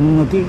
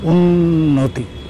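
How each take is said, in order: First: The n sound runs on without a held gap. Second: The double n is held with a small gap. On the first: The speaker calls it wrong. "তুমি উচ্চারণ করছো উন্নতি মনে হচ্ছে নয় জফলা দিয়ে" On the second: The speaker calls it right. "এইটুকু gap দিতে হবে নইলে নয়ের নিচে ন দাঁড়াবে না"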